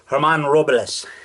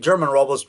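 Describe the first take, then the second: First: The first name starts with an H sound. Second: The first name starts with a hard G sound. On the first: The speaker calls it right. "the G is pronounced with like as an H sound" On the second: The speaker calls it wrong. "It looks like German Robles"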